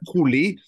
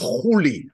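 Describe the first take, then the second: First: The name begins with a hard K sound. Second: The name begins with a breathy H sound. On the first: This is the usual modern pronunciation. The speaker calls it wrong. "That's the way it's being pronounced usually" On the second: This is the likely original pronunciation. The speaker calls it right. "the right pronunciation back then at the time was Huli"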